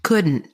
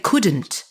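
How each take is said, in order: First: "couldn't" with the American swallowed ending. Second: "couldn't" with every sound pronounced; crisp final t on "couldn't"; Kenyan "couldn't". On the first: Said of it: "That's very American". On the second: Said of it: "the Kenyan accent is you pronounce everything". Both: Shown as a demonstration.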